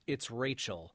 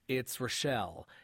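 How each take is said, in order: First: The name is said the southern way. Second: The name is said the northern way. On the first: The speaker is from the south. "If you're from the south" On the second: The speaker is from the north. "if you're from the north"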